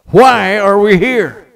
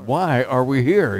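First: Loud, slow, high-pitched shout; preacher's shout. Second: Said in the usual way. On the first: Retold or imitated. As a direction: bellow it out for the whole hall. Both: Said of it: "that's not strong enough".

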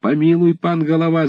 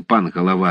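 First: Высокий умоляющий вскрик; взмолиться, кланяясь в ноги; мольба. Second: Said in the usual way. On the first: Acted. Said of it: "закричали некоторые". (десятские умоляюще кричат, кланяясь голове)

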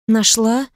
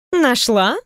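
First: Робкий неуверенный повтор с подъёмом; повтори, сама сомневаясь; неуверенно. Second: Недоверчивое переспрашивание с подъёмом; спроси с сомнением в голосе; недоверчиво. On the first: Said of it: "неуверенно повторила София". (София неуверенно повторяет слово подруги) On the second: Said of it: "недоверчиво поглядела". (подруга недоверчиво переспрашивает) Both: Acted.

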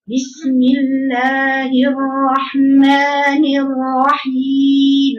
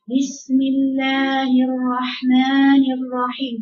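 First: Slow, full chanted basmala; sung, recite with diligent strength; sung, strong recitation. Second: Slow, limp basmala with no drive; lazy recitation. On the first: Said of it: "يقرأ قوي". (sung, بسملة مجوّدة قوية بجهد) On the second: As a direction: mumble it like a lazy reader. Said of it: "ده كسلان". (بسملة كسلانة بلا قوة) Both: Shown as a demonstration.

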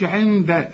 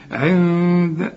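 First: عند with tongue pressed on the n; wrong tongued noon. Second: عند with a long nasal hum for n; hidden noon. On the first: Teacher shows what not to say, عند with tongued n. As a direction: articulate the n fully in عند. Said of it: "ما تقولش". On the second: Teacher corrects the student, عند with long hidden hum. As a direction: draw out the hummed n of عند. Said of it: "اخفيها وغنها". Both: Shown as a demonstration.

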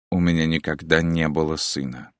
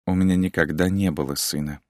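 First: Said in the usual way. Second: Wry joyless chuckle. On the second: A narrator's reading. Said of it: "невесело усмехнулась она".

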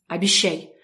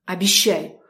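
First: Stern. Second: Stern, pressed harder; more menacing. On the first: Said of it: "строго проговорила я". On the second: Girl demands her sister's promise, more menacing. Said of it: "уже более грозно проговорила я". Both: A narrator's reading.

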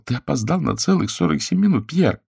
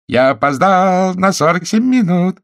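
First: Trembling voice. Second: Sung, high, loud falsetto singsong; husband mockingly sings the wife's complaint back in falsetto. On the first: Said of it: "Голос её дрожал". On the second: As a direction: sing the apology back gaily in falsetto. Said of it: "пропел мужчина фальцетом". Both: A narrator's reading.

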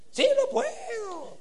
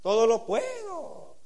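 First: Mock sing-song, pitched way up. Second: Said in the usual way. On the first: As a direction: parody a pious chant, high and lilting. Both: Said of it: "El cantadito que usamos".

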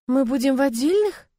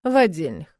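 First: Higher, rising surprised question on «отдельных». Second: Curt falling «В отдельных», clipped off; short reply. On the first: Acted. Young bride to husband, surprised rising question. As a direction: let «отдельных» climb up in disbelief. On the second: A narrator's reading. Husband to bride, short falling answer. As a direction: drop «В отдельных» short and final. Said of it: "коротко отвечаю я".

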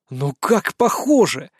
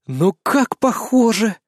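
First: Insistent boast. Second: Drawn out, higher, admiring; slow delighted boast. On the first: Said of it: "гнул я своё". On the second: Narrator boasts to Svetlana, slow and delighted. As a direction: savour the likeness, slowly. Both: A narrator's reading.

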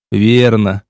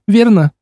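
First: Said in the usual way. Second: Higher, curious female "верно?" rising at the end; girl's rising question. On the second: A narrator's reading. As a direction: ask "верно?" brightly as the girl. Girl asks, narrator answers. (девушка спрашивает «верно?» с подъёмом)

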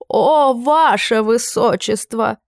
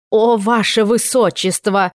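First: Drawn-out, hand-on-heart gush, higher and slower; exclaiming, slower and higher. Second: Exclaiming, slow. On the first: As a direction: stretch out the "О" even more. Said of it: "Герцог перехватил сердце". (ещё более растянутое, восторженное «О, ваше высочество!») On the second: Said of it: "закричал он". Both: A narrator's reading.

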